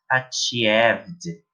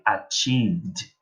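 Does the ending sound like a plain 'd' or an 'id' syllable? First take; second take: id syllable; plain d. First: The ending is an extra 'id' syllable. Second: The ending is only a 'd' sound. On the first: The speaker calls it wrong. "eu não vou dizer" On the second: The speaker calls it right. "eu vou dizer"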